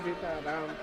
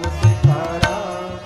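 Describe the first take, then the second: First: It is said grudgingly, without any wish. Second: It is said with loving devotion.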